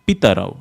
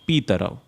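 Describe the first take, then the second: First: The vowel after the P is short. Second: The vowel after the P is long. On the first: The speaker calls it right. "Jagatah Pitarav" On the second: The speaker calls it wrong. "not Pitarav"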